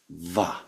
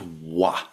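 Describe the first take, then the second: First: It begins with a soft v sound. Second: It begins with a rounded w sound. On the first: The speaker calls it right. "It is va" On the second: The speaker calls it wrong. "it is not wa"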